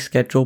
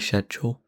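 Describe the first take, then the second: First: The word is said in a non-British way. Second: The word is said in the British way. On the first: "I say schedule" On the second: "the British version is meant to be schedule"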